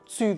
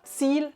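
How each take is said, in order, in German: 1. Dialektvokal wie ü, kein L am Ende. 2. Standardvokal mit deutlichem L am Ende.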